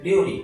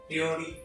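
First: It is said in standard Japanese pitch. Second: It is said with a Kyoto accent.

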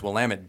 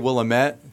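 First: The ending sounds like 'damn it'. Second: The ending does not sound like 'damn it'. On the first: The speaker calls it right. "it's Willamette. Damn it" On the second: The speaker calls it wrong. "some people say Willamette, which I used to say that too until somebody from the region said no"

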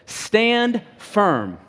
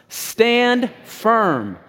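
First: The phrase is said in a plain, ordinary way. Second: The phrase is said firmly and with force. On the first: "Say that with me" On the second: "Now say it with firmness"

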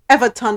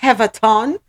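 First: The name starts with a vowel sound. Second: The name starts with an h sound.

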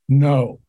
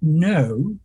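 First: It is said in an American accent. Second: It is said in an English accent. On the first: "good American speakers are very flat mouths. So they go" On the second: "And the English would go"

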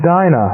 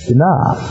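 First: The stress is on the first syllable. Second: The stress is on the last syllable.

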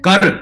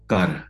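First: The word is yelled loudly. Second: The word is said calmly.

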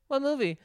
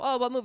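First: The question sounds pointed and doubtful. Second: The question sounds light and casually curious. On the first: Disapproval of the plan to watch a movie. "You were like, what movie? You sounded like, well, really, are you?" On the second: A simple, friendly question about the movie. "You didn't just go"

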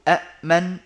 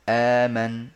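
First: It begins with two glottal stops in a row. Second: It begins with one glottal stop and long a. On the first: The speaker calls it wrong. "بدلا من أن يقولوا أأمن" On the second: The speaker calls it right. "يخلوها آمن"

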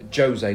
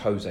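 First: The name is said with a Portuguese pronunciation. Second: The name is said with a Spanish pronunciation. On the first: The speaker calls it right. "because he's Portuguese" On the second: The speaker calls it wrong. "not Spanish"

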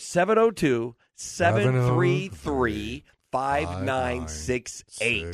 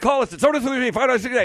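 First: The number is said slowly. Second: The number is said quickly.

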